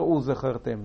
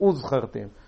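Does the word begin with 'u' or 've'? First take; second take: ve; u. First: The word begins with a ve sound. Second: The word begins with a u sound. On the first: The speaker calls it wrong. "אתה לא אומר וזכרתם" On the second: The speaker calls it right. "כשיש וו שרוקה ואחריו שוונח, אתה אומר וזכרתם"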